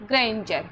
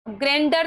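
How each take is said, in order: First: "ग्रेंजर" with d as j; correct pronunciation. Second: "ग्रैंडर" with a hard d; wrong pronunciation. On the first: Teacher corrects the misreading for students, "ग्रेंजर" with a j sound. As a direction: say "ग्रेंजर", a j after the n. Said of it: "ग्रैंडर नहीं पढ़ना". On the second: Teacher shows students the misreading, "ग्रैंडर" with a d sound. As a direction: say "ग्रैंडर", d instead of j. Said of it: "नहीं पढ़ना". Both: Shown as a demonstration.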